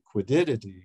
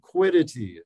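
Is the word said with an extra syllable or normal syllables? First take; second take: extra; normal. First: It is said with an added extra syllable. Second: It is said with its usual number of syllables. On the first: The speaker calls it wrong. "I always put an extra syllable in that term" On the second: The speaker calls it right. "Quiddity is the correct pronunciation"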